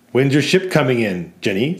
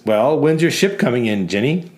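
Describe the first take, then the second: First: Walter repeats the taunt, lightly mocking; jeering customer repeat. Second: Lightly voiced jeering bar customer; mocking customer. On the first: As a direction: echo the jibe at Jenny. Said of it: "says Walter". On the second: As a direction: tease the barmaid about her ship. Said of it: "one of them says".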